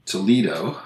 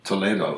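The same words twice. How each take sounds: First: "Toledo" as "tuh-LEE-do"; Americanized "Toledo", stressed "LEE"; Ohio pronunciation. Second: "Toledo" as "to-LAY-do"; Spanish-style "Toledo", stressed "LAY"; Spanish city pronunciation. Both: Shown as a demonstration.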